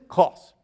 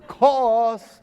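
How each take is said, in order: First: The word is said at normal loudness. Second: The word is said more loudly.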